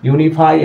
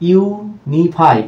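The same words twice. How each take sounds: First: Said in the usual way. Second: ইউনিফাই very slow, as "yu - ni - fai"; three separate higher-pitched beats on ইউনিফাই; syllable by syllable. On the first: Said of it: "এক করা". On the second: Shown as a demonstration. Teacher counting three syllables, slow syllable-by-syllable. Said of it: "তিনটি syllable রয়েছে".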